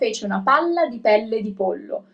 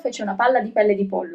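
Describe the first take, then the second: First: The phrase is read at a slow pace. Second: The phrase is read at a fast pace. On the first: "I'm gonna read it a little bit slower at first" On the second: "I'm gonna try to read it a little bit faster"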